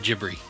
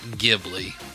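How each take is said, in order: First: It starts with a J sound and has R. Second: It starts with a hard G and has L. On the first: The speaker calls it right. "the G H makes a soft J sound, J, and the B L I in Japanese phonetics makes a B R sound" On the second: The speaker calls it wrong. "versus a hard G"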